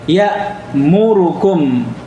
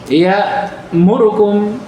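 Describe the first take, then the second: First: The vowel on 'ru' is given full length. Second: The vowel on 'ru' is cut very short. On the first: "Harusnya kan apa?" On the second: "ada yang membacanya ya'murukum"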